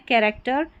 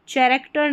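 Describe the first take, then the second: First: कैरेक्टर with a hard "k" at the start; correct pronunciation. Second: चैरेक्टर with a "ch" sound at the start; mispronunciation. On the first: (सही उच्चारण, क से "कैरेक्टर") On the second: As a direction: show the wrong reading, चैरेक्टर starting with च. (गलत उच्चारण, च से "चैरेक्टर") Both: Shown as a demonstration. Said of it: "चैरेक्टर नहीं पढ़ना है".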